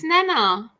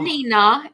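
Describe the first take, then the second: First: The first vowel sounds like 'eh'. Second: The first vowel sounds like 'ee'. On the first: The speaker calls it right. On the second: The speaker calls it wrong. "It's not"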